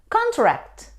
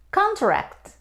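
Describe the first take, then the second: No difference in how they are said.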